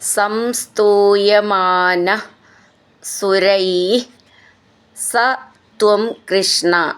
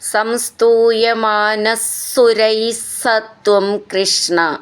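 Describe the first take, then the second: First: The words are said separately with a single s. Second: The words run together with a doubled s.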